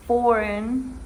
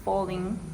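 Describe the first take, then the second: First: Said in the usual way. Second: "falling" as foreign with an L for the R. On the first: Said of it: "she pronounced falling". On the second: Shown as a demonstration. Student imitating the Japanese speaker, "falling" with L for R. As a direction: put an L where the R of foreign belongs, "falling". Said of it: "the R sound for the L sound".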